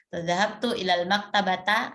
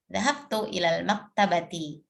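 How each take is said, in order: First: The last word ends in an a vowel. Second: The last word ends in an i vowel. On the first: The speaker calls it wrong. "nah itu pasti keliru" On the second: The speaker calls it right. "yang betul"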